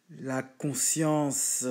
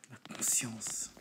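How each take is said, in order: First: Slow emphasis. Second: "la conscience" breathed out slowly in a whisper. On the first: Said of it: "dwells on the word". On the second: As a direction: let the word sink in, whispered. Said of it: "repeats as whisper". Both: Shown as a demonstration.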